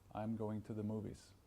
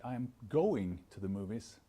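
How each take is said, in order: First: No word stands out from the others. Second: One word is given strong emphasis. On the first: The sentence is hard to understand. The speaker calls it wrong. "rather than just saying" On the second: The sentence tells the listener something specific. The speaker calls it right. "by emphasizing those different words"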